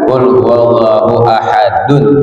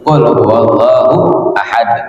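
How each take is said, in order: First: The last word ends with an added -un sound. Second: The last word ends on a bare d sound. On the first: The full ending is read, as when the verse continues. "setelahnya ada nunnya" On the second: The reciter stops at the end of the verse. "Boleh kita berhenti"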